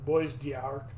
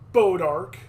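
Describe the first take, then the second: First: It is said with a French-style pronunciation. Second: It is said with a local American pronunciation. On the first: "You want me to try and say it in French" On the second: "here's the way they say it in Missouri"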